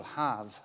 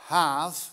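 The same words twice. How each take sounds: First: "Have" said low with a falling tune and an open a, /hɑv/; "Have" dropped down, like "hahv"; Hebrew word. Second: "Have" lifted up as a Hebrew word. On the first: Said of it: "Have is meaning give". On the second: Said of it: "Have means give". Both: Shown as a demonstration.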